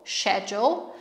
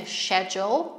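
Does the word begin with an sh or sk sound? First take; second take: sh; sh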